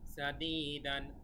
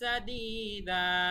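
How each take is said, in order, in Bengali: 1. শব্দটি চূড়ান্ত 'n' ধ্বনি দিয়ে শেষ হয়। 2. শব্দটি খোলা 'a' স্বরধ্বনি দিয়ে শেষ হয়। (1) "এখানে দান হবে না" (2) "দা হবে"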